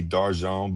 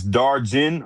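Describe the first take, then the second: First: "Darjan" as dar-ZHAWN, French style; old Louisiana pronunciation. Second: "Darjan" as DAR-jin, English j; hard English j and short i in "Darjan"; anglicized pronunciation. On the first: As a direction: Louisiana French "Darjan", rhyming loosely with "dawn". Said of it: "in Louisiana, it used to be". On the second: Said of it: "it used to be Darjan". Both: Shown as a demonstration.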